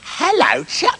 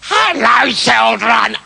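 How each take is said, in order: First: The voice sounds nice and sweet. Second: The voice sounds rough and scratchy. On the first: The speaker calls it right. "That's it" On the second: The speaker calls it wrong. "No, no, no"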